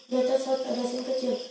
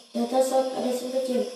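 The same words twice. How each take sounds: The two takes are said the same way.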